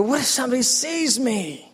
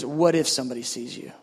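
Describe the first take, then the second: First: High-pitched worried whine; mock-anxious plea. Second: Low, measured question back; calm voice of God. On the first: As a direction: fret to God in a raised pitch. Repeats his worried plea to God. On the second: Retold or imitated. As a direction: turn the worry back calmly and low. The Lord answers him back.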